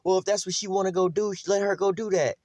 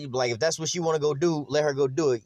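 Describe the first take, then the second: First: Higher, mocking the lax mother; a higher, mocking voice for the careless mother; mock permissive mother. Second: Said in the usual way. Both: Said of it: "they be like".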